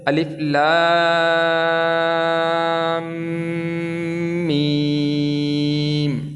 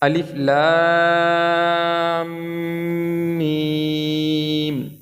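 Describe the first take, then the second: First: The vowels in the letter names are stretched long. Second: The vowels in the letter names are stretched long.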